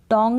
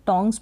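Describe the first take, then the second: First: टोंग without the final s; टोंग said as the incorrect singular; wrong form. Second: Said in the usual way. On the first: Shown as a demonstration. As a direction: drop the s from टोंग. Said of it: "टोंग नहीं बोलेंगे". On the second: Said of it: "टोंग्स बोलेंगे".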